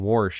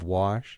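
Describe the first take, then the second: First: It is said with an added r, West Virginia style. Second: It is said without an r, in standard style.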